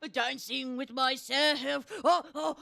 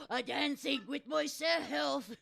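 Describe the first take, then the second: First: Slow, louder wonder; delighted exclamation. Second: Slow, loud joyful shout; shouted delight. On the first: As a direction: marvel at it slowly. Peach marvels, slow and loud. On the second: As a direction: shout it with glee. Repeats as a shout. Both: Acted.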